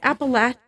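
It is said the way locals there say it.

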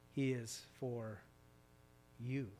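The stress is on the word 'you'.

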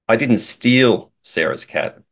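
The stress is on the word 'steal'. The speaker maybe borrowed it or was given it. "implies that maybe I borrowed it or she gave it to me"

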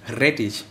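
The R is rolled, in a Franconian accent.

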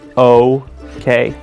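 It is said in an American accent. "In American, it goes the other way"

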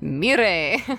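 The name is said in a Japanese way.

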